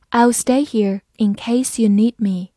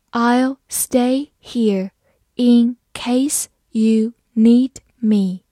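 First: Said in the usual way. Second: Very slow, word by word; slow reading. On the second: Shown as a demonstration. Teacher modelling for students, very slow and clear. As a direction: stretch each word for the learners. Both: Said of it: "好，慢慢来读。".

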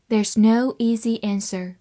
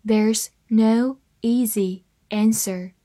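First: Said in the usual way. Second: Slow, spaced-out model sentence; slow reading. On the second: Shown as a demonstration. English teacher models the sentence for learners, reading slowly. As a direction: read slowly, one word at a time. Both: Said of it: "慢慢来读".

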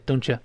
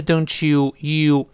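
First: "don't you" merged into "don-chuh"; weakened, linked. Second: "don't you" with a full, clear "you"; full form. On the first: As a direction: weaken "you" to a short yuh joined to the t. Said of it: "它弱化了". (“don't you”连读弱化，读如don-chə) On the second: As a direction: give "you" its whole long vowel in "don't you". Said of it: "本来是don't you". (“don't you”中you完整读出) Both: Shown as a demonstration.

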